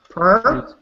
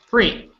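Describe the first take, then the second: First: The vowel comes before the r. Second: The r comes before the vowel. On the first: The speaker calls it wrong. "I heard per. I don't want per" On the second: The speaker calls it right. "I don't want per"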